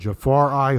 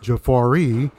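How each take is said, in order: First: The name ends with an 'eye' sound. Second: The name ends with an 'ee' sound. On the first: The speaker calls it right. "that's the correct pronunciation" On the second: The speaker calls it wrong. "the pronunciation Jafar might have been Jafar E"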